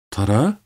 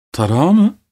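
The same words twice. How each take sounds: First: Said in the usual way. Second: Incredulous. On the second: A narrator's reading. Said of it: "diye sordum".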